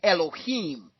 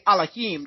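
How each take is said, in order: First: The word is said with a soft, smoothed sound. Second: The word is said with a harsh, guttural sound. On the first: This is the European way of saying it. The speaker calls it wrong. "stick with the European sound" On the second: This is the original sound of the language. The speaker calls it right. "That just sounds too harsh"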